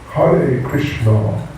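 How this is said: It is said with a Bengali-style pronunciation. This is how devotees in Bengal say it. "This is Bengali style"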